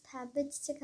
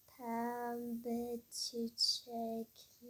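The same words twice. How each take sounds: First: Said in the usual way. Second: Very slow, soft, drawn-out shopkeeper; painfully slow speech. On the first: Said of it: "Niye bu kadar yavaş konuşuyor". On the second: Acted. Florist repeats the customers' order, painfully slowly. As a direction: drag every syllable out, in no hurry. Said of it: "hızlı konuşur musunuz?".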